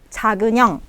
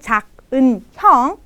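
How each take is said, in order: First: The final n links smoothly into the next word. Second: The final n stays separate from the next word. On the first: The speaker calls it right. "tapi 작은 형" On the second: The speaker calls it wrong. "Bukannya 작은 형"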